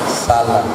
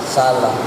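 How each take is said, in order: The two takes are said the same way.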